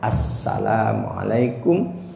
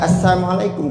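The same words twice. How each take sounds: First: The s sound is doubled and held long. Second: The s sound is single and short. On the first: The speaker calls it right. "Pastikan kita mengucap salam itu ada tasdidnya" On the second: The speaker calls it wrong. "berarti ngurangi huruf, maka itu salamnya tidak sah"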